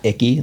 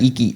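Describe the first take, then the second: First: The first syllable sounds like 'ick'. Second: The first syllable sounds like 'ee'. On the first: The speaker calls it wrong. "not icky" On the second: The speaker calls it right. "Iki, not icky"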